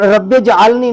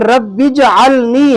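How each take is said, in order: First: The word ends in a short 'e' vowel. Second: The word ends in a long 'ee' vowel. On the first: The speaker calls it wrong. "नहीं है" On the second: The speaker calls it right. "बल्कि रब्बी जअलनी है"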